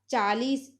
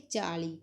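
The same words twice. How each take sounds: First: चालीस with final s, slow; Hindi form. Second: चाली with final s dropped; Punjabi form. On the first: Teacher giving the Hindi word, चालीस with s. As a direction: close चालीस on s. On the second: Teacher showing the Punjabi form, softer open चाली. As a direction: end चाली on ee. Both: Shown as a demonstration. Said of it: "तो पंजाबी च बोलांगे".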